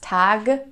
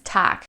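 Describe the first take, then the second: First: The word ends with a soft G sound. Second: The word ends with a harsh K sound. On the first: The speaker calls it wrong. "Even though it ends with a G, we don't pronounce it as Tag" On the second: The speaker calls it right. "so with a harsher K sound"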